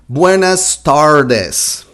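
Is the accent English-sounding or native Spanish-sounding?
English-sounding. It is said with an English-sounding accent. This is how a beginner learner would say it. "I think you're gonna say something like that"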